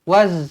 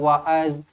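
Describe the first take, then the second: First: No vowel follows the z sound. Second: An a vowel follows the z sound. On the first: The speaker calls it right. "Waz sahaja" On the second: The speaker calls it wrong. "tak payah wa'az"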